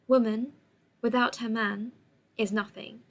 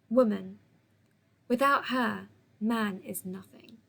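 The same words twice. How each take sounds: First: It is said as one unbroken phrase. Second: It has pauses after woman and her.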